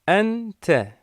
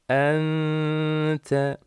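First: The n is fully pronounced with no held nasal. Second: The n is hidden and held through the nose. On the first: The speaker calls it wrong. "şeklinde böyle kuralsız, tecvitsiz okunuyor" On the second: The speaker calls it right. "Bu iki kuralı dikkate alarak uygulamamızı yapalım"

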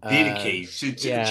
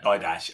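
First: The word ends with a 'kay' sound. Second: The word ends with a 'sh' sound. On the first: This is the original Greek pronunciation. The speaker calls it right. "The didache" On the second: This is a long-held habitual pronunciation. The speaker calls it wrong. "All my life, I've been pronouncing that didash"

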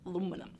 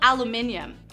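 First: The word is said as aluminum. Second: The word is said as aluminium.

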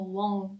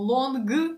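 First: The word ends in a nasal sound without G. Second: The word ends with a pronounced hard G sound. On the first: The speaker calls it right. "ми кажемо long" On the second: The speaker calls it wrong. "Ми не кажемо long"

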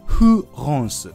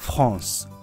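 First: It starts with a weak Japanese fu sound. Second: It starts with a hissing f, upper teeth on lip. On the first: The speaker calls it wrong. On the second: The speaker calls it right.

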